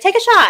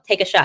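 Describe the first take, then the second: First: High, loud egging-on call; teammates egging on. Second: Said in the usual way. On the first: Retold or imitated. Teammates in the locker room urging her to shoot, high loud call. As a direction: hype her up like a rowdy teammate.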